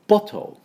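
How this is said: The middle t is clearly pronounced, British style. "イギリス人だと、bottle。"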